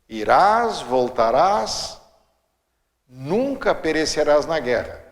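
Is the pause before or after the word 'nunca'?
before. The pause comes before nunca.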